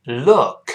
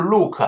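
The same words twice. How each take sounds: First: "look" with a short, open relaxed vowel; correct pronunciation. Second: "look" with a tight pinyin oo; wrong pronunciation. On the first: Teacher models the right vowel for learners, correct pronunciation. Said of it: "所以是look". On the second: Teacher shows what not to say, wrong pronunciation. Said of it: "不是look". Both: Shown as a demonstration.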